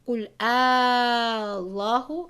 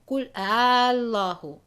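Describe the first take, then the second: First: The opening vowel is held long, six counts. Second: The opening vowel is held short, two counts. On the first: "again with six" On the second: "just for two counts"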